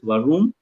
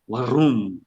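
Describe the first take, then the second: First: The r is soft, with no extra force. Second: The r is strong, like a grumbling sound. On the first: The speaker calls it wrong. "you don't pronounce this as varum" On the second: The speaker calls it right. "give some extra emphasis on r, ... kind of a grumbling sound"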